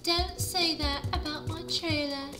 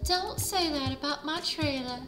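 First: It is spoken in a British accent. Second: It is spoken in a Southern American accent. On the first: The speaker calls it wrong. "I just changed her voice to British" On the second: The speaker calls it right. "I just lost my Southern Belle"

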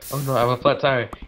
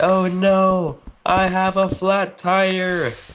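First: The line is said plainly, without drama. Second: The line is said in an exaggerated, dramatic way.

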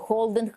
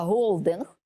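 First: The word begins with a harsh 'kh' sound. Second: The word begins with a breathy 'h' sound. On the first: The speaker calls it wrong. "то не холдинг" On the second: The speaker calls it right. "а голдинг, відповідно до законів української мови"

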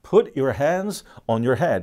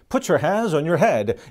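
First: Put and your are cut apart cleanly. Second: The t of put runs into your. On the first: "딱 끊어서 발음합니다" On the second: "t하고 u가 연결되면 put you라고 연음이 또 되기도 해요"

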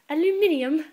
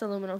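First: The word is said the British way. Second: The word is said the American way.

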